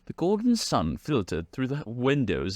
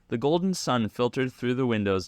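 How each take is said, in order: First: It is read in a put-on British accent. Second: It is read in the speaker's normal accent.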